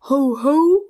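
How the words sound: It is said in a bored, flat way. The speaker calls it wrong. "Gelangweilt schlägt sie deshalb vor"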